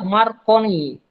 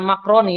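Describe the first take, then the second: First: The r sound comes before the c. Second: The r sound comes after the c. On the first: The speaker calls it right. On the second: The speaker calls it wrong.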